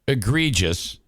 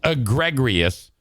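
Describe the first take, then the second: First: The word is said without an added R sound. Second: The word is said with an added R sound. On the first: "taking that word" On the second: "adding an R as egregious"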